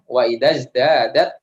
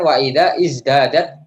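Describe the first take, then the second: First: The words link, dropping the vowel before izdadat. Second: The vowel starting izdadat is pronounced separately. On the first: The speaker calls it right. "Jadi hamzah wasolnya nggak dibaca. Lebih bagusnya lagi wa idaz" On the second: The speaker calls it wrong. "Jangan wa ida izdadat. Jangan seperti itu"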